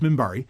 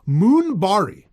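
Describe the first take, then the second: First: The first vowel is a short 'ih' sound. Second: The first vowel is a long 'oo' sound. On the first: The speaker calls it right. "that's spelled M I N B A R I" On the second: The speaker calls it wrong. "how she pronounces it"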